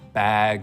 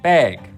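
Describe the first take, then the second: First: The vowel is low and open. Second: The vowel is raised and tense. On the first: This is how most English accents say it. "in most accents of English, the vowel sound in words like" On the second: This is how the Great Lakes accent says it. "pronounced with a little bit tenser tongue and sounds like"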